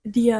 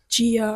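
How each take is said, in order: First: The word begins with a hard d sound. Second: The word begins with a soft j sound. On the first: This is how people in Portugal say it. "They say" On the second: This is how it is said elsewhere. "they don't say"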